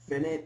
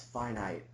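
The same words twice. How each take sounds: First: It sounds like the end of 'infinite'. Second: It does not sound like 'infinite'. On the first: The speaker calls it wrong. "Finite is not a word; Just because it took away the ion from infinite" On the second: The speaker calls it right. "it's finite"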